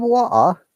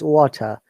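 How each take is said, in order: First: The T and R sounds are dropped. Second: The T and R sounds are clearly pronounced. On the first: "They don't pronounce T, they don't pronounce R. This is Cockney accent" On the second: "Means water"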